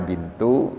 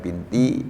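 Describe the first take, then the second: First: The word ends with an u vowel. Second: The word ends with an i vowel. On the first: "dibaca bintu" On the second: "dibaca lagi binti"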